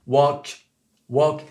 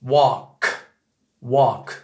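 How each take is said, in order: First: "walk" ending in a French-style K; French-accented final K on "walk". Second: "walk" ending in an American K, falling; louder "walk" with an American K. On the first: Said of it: "C'est un K français". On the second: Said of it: "Le K américain, c'est ça". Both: Shown as a demonstration.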